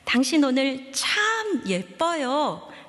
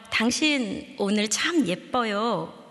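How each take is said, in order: First: The word 참 is said with extra force. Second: The word 참 is said without extra stress.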